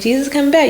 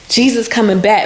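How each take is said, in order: First: It is said in a light, casual tone. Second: It is said in a grave, urgent tone. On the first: It is just a piece of news. The speaker calls it wrong. "you're not gonna say" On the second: It is a serious warning. The speaker calls it right. "he said it in that kind of tone"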